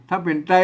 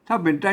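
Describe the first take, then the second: No difference in how they are said.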